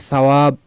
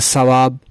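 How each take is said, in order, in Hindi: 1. यह नरम 'th' ध्वनि से शुरू होता है। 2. यह सीटी जैसी 's' ध्वनि से शुरू होता है। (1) "मैंने कहना है" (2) "मैं दांतों को मिला दूंगा, वो बन जाएगा"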